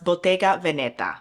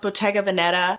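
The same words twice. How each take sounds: First: It is said with an Italian pronunciation. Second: It is said with an American pronunciation. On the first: "it is technically pronounced" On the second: "as is because I think that's how most of us in the U S pronounce it"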